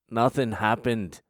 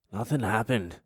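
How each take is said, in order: First: Slower, drawn-out nothing happened; slow mock denial. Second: Deadpan nothing happened, a touch sheepish; mock innocent denial. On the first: To the audience, pretending innocence: slow mock denial. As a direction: stretch the denial out, unconvincing. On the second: To the audience, faking innocence: mock innocent denial. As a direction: play innocent, lightly. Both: Shown as a demonstration.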